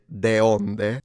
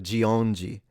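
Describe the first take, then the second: First: It is pronounced just as it is spelled. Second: It is pronounced in the native Portuguese way. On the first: "If I read it, de, I would have read it de onde" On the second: "It's the pronunciation that makes it harder for us Italians"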